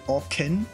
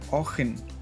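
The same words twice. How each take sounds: First: The middle consonant is a hard K sound. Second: The middle consonant is a throaty ch sound. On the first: "It's like a hard K sound" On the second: "I think it's more ch"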